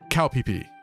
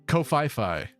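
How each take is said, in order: First: The name is said in a Thai way. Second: The name is said in an American way. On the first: The speaker calls it right. "this island in Thailand is actually pronounced" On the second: The speaker calls it wrong. "As an average American citizen, you might pronounce that"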